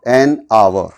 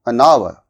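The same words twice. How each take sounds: First: The two words are said separately. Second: The two words are linked together. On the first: The speaker calls it wrong. "इसको अलग से बोलते हैं, जो बिल्कुल गलत है।" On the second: The speaker calls it right. "इसके साउंड इसके साथ में मिक्स कर देंगे।"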